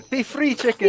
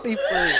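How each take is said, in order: First: Mock farewell. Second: Light mimic of her farewell; quoting her. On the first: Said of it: "She literally just said it". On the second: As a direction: echo her words with a laugh. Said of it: "She just said".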